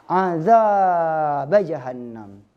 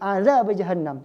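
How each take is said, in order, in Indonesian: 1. Vokal pada azab dibaca panjang. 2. Vokal pada azab dibaca pendek. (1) "dibayangkan dan dipanjangkan lafalnya" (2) "Harusnya azab itu cuma dua harakat natural asli"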